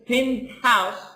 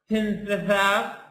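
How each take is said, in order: First: The t and h are said as separate sounds. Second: The t and h merge into one th sound. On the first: The speaker calls it right. "No, it's penthouse" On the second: The speaker calls it wrong. "So it's not penthouse"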